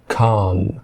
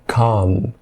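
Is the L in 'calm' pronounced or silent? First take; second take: silent; silent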